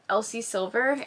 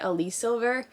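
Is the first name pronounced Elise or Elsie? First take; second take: Elsie; Elise. First: The first name is pronounced Elsie. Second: The first name is pronounced Elise. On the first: The speaker calls it right. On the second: The speaker calls it wrong.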